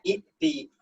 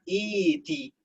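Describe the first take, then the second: First: A glottal stop comes before the t. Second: The first vowel is long with no stop. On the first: This is the underlying original form. "Aslinya i'ti" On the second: This is how the word is actually read. "dibaca iti"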